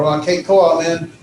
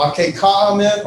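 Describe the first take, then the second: First: "a, ke, ko, amen" with a long o in ko; ko variant. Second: "a, ke, ka, amen" with an open ah in ka; ka variant. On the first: Teacher showing the other dialect choice, the ko pronunciation. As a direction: say ko like "coe" in place of ka. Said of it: "depending upon your dialect". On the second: Teacher showing a dialect choice, the ka pronunciation. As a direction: say ka like "kah" in place of ko. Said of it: "or ka". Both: Shown as a demonstration.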